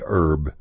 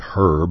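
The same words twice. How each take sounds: First: It is said Texan style, without the h. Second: It is said British style, with the h.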